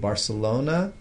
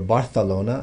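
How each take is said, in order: First: It is pronounced in an English way. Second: It is pronounced in a Spanish way.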